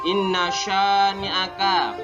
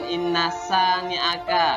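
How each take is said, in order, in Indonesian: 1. Kata kedua diawali dengan bunyi sh. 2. Kata kedua diawali dengan bunyi s. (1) "Sya tebal"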